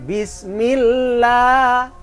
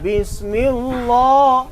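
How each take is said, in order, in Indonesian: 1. Huruf L dalam Allah terdengar tipis dan ringan. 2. Huruf L dalam Allah terdengar tebal dan penuh. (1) "tetap bismillah. Itu tar tarkik" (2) "tidak boleh"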